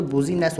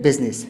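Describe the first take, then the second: First: "बूजीनेस" in three syllables with a long middle EE; wrong pronunciation. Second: "बिजनेस" in two syllables, "biz-nes"; correct pronunciation. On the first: Teacher showing the silent-I mistake, mispronounced. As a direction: sound the I in "बूजीनेस". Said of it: "वरना ये तो". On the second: Teacher giving the right word, correctly pronounced. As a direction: say "बिजनेस", middle I silent. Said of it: "सिर्फ". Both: Shown as a demonstration.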